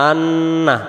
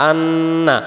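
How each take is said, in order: The two takes are said the same way.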